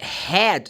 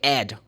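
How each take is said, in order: First: The word starts with an h sound. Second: The word starts without an h sound.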